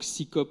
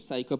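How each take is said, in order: First: The acronym is pronounced with French sounds. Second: The acronym is pronounced with English sounds. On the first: "prononcé à la française" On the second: "en anglais"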